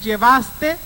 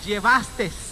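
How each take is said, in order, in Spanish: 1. La palabra termina en sonido vocal. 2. La palabra termina con un sonido de s añadido. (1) "en lugar de decir llevaste" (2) "le están agregando una S"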